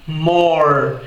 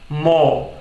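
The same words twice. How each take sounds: First: The final r is sounded, curled back. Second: The final r is silent after the vowel. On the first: "esse é o R retroflexo presente no inglês americano" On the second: "Já no inglês britânico"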